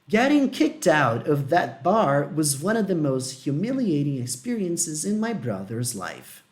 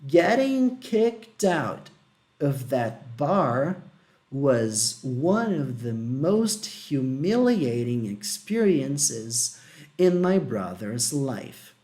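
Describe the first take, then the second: First: It is read at normal speed. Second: It is read slowly with pauses.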